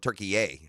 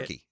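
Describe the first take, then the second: First: The name is said with an extra final syllable. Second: The name is said with two syllables. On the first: This is the newly adopted form of the name. "they're going Turkey A" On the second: This is the long-standing English name. "It's been Turkey forever"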